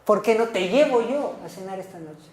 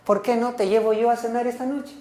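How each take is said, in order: First: "llevo" stressed with a falling tune; a reproach landing on "llevo". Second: A real question rising at the end on "noche"; asking question. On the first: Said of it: "Y es el reclamo". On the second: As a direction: ask it as a genuine invitation, rising. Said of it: "le está preguntando". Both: Shown as a demonstration.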